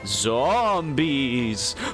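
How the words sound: It is said in a spooky voice.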